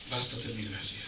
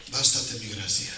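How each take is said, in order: Both takes have the same delivery.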